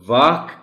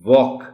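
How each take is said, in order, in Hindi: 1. स्वर एक खुला, बिना गोलाई वाला 'aa' ध्वनि है। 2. स्वर एक गोल 'aw' ध्वनि है। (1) "जो बच्चे वाक कहते हैं" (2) "वो भी वॉक कहना शुरू कर दें"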